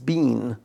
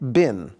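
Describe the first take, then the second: First: The vowel is long, like 'bean'. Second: The vowel is short, like 'bin'. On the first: "And in London, in Britain, it's bean" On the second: "Here in the United States is always bin"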